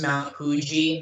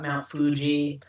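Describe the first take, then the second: First: Fuji begins with a soft h-like sound. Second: Fuji begins with a clear f sound. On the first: The speaker calls it right. "is pronounced as a Hu. Like it's Mount Fuji" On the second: The speaker calls it wrong. "not Mount Fuji"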